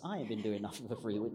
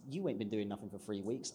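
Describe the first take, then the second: First: I pitched up at the start; stress on I. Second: YOU pitched up at the start; stress on YOU. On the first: Writer turning the retort on themselves, stress on I. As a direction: lean on "I", then let the rest run on. Contrasts them with self. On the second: Writer mimicking a retort to chasing clients, stress on YOU. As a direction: lean on "You", then let the rest drop. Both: Acted.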